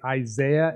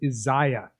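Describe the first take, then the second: First: It is said in the speaker's usual pronunciation. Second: It is said in the African pronunciation. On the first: The speaker calls it wrong. "I say Isaiah" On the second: The speaker calls it right. "so that I don't get laughed at"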